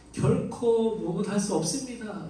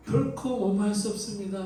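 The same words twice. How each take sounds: First: 결코 pressed hard, slow and firm; stress on 결코. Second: 결코 set apart at the start, then falling; stress on 결코. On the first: Preacher stressing 결코 for the congregation. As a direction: lean on 결코 and let the rest fall. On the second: Preacher repeating Peter's refusal, stressing 결코. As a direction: open with a firm 결코. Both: Shown as a demonstration. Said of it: "이 우메라는 말로 이 문장을 시작하고".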